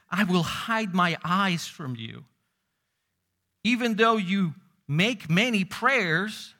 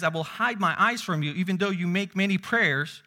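First: Slow, weighty, louder declaration of God; slow grave scripture reading; slow solemn quote. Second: Said in the usual way. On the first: Acted. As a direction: draw out each word like a solemn verdict. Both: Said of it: "he says".

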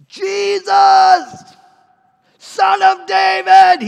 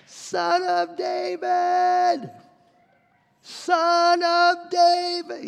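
First: High, drawn-out desperate shout; bellowing. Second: Very long, high held call; crying out more. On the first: Blind beggar calling to Jesus through the crowd, bellowing. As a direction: bellow it out loud over a crowd. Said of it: "Bartimaeus starts bellowing". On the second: Rebuked beggar ramping up his plea to Jesus, crying out. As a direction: stretch every word into a far-carrying wail. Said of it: "he cried out all the more". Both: Acted.

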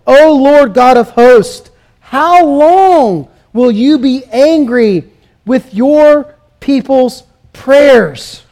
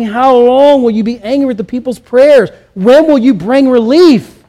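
First: Slow, drawn-out lament reading; slow solemn prayer; slow scripture reading. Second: Steady, plain reading of the plea; evenly paced reading; scripture reading at normal pace. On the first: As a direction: read the verse slowly, like a mournful plea. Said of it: "Look at verse four". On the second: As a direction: read the verse at an even pace. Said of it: "the psalmist is asking". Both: Acted.

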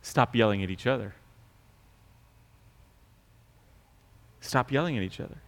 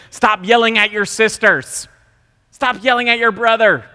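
First: Quiet irony. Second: High, loud scolding fall; yelling at kids. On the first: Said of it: "ironic quieter repeat". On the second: Parent scolding kids for yelling, loud and high. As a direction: bark it at the kids. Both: Retold or imitated.

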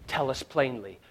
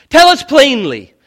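First: Quiet, level demand; hushed quote. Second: Loud, high, falling demand; loud, hammered demand; shouted demand. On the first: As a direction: murmur the demand under the breath. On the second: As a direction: throw the demand out at full voice. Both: Retold or imitated. Same quote said twice.

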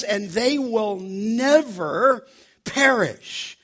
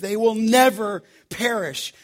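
First: Slowed right down, each word weighed; slow reverent reading of the verse; slow solemn quote. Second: "never" leaned on, the rest at a normal pace; emphatic "never" in a teaching tone; stress on never. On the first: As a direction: read it out slow and solemn, like scripture. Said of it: "He says". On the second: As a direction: hit "never" and keep moving. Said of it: "You have a negative". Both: Shown as a demonstration.

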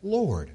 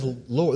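First: "Lord." lifted high and falling, set apart; emphatic Lord. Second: "Lord." said plainly with a light rise; just read "Lord." plainly, ending up. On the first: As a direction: lift "Lord." up high and let it fall, as a title. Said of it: "This is the first time this is used". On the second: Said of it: "Luke uses this word Lord". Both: Shown as a demonstration.

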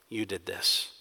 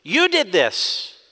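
First: Much softer, low, You leaned on; quiet blame. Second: Frustrated accusation. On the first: People blaming God, quiet and low. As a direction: murmur the accusation under the breath. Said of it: "shifting the blame ... on God". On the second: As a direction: point the finger hard at You. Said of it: "It is a frustrated accusation". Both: Acted.

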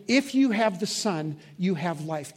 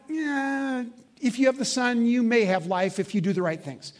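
First: Slow, firm "If you have the Son, you have life" with a settled fall; firm correct version. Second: Higher, dismissive "yeah, maybe" hedge; wrong hedging version. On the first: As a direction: state it as certain truth, slowly. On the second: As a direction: shrug it off as if life were conditional. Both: Shown as a demonstration.

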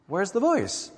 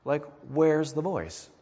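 First: Where's the voice, pitched up in disbelief; raised repeat. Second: Said in the usual way. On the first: Acted. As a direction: repeat it higher, pressing the question. Rhetorical question repeated higher.

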